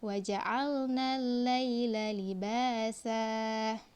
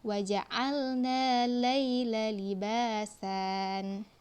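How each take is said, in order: First: The last word ends on an open vowel, no n. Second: The last word ends with an added n sound. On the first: The speaker calls it right. "betulnya adalah libasa" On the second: The speaker calls it wrong. "Libasan itu yang salah ya"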